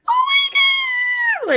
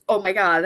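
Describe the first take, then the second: First: Very high, slow, loud squeal of Oh my God; squealing like a pig. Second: Said in the usual way. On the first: Retold or imitated. Wife replaying her shocked squeal at husband's surprise, very high squeal. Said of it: "squealing like a pig". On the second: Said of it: "I was probably like".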